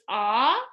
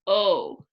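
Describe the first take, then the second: First: The vowel is an open 'ah' sound. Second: The vowel is a gliding 'oh' sound. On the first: "A short O, which says ah" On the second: "long O"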